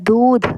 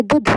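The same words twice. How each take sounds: First: दूध with a long oo; long vowel. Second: दूध clipped to "dudh"; short vowel. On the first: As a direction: hold the oo in दूध. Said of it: "हम बोल रहे हैं दूध". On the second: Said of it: "हम ऐसे तो नहीं बोल रहे". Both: Shown as a demonstration.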